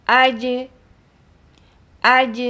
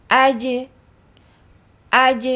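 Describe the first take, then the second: Both takes have the same delivery.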